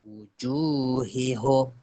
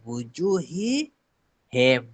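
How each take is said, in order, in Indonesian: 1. Suku kata terakhir dibaca dengan vokal 'u'. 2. Suku kata terakhir dibaca dengan vokal 'i'. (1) "Kalau kita nak baca home, nanti dia bunyi dia macam ni" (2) "sebab nak mudah, dia ada nak memudahkan bacaan tu"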